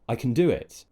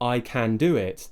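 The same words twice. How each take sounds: First: The word can has a reduced schwa vowel. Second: The word can has a full, open vowel. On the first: "Now I'm pronouncing the word can as kun. I'm using the schwa sound" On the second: "that would sound fine"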